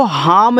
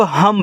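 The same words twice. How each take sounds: First: हाम with a long aa, the wrong way; wrong long vowel. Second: हम with a short a, said ham; correct short vowel. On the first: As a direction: stretch हाम as haam, the error to avoid. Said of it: "इसको हाम नहीं पढ़ना है". (गलत उच्चारण, हाम लंबे आ के साथ) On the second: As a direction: say हम short and clipped, the right way. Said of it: "इसको आप लोग हम पढ़ोगे". (सही उच्चारण, हम छोटे अ के साथ) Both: Shown as a demonstration.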